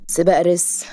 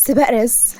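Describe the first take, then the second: First: Unimpressed questioning repeat; dry, sceptical hero's question; incredulous echo. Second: Higher, eager heroine's announcement; excited pitched-up reveal. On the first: Acted. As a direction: echo it back in doubt. Hero echoes her in disbelief. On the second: A narrator's reading. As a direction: announce it with keen enthusiasm. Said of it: "عيونها لمعت بحماس".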